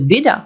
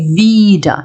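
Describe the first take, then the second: First: The first vowel is short. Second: The first vowel is long. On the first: It means acting against something. "коротке «e»" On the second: It means again. "довге"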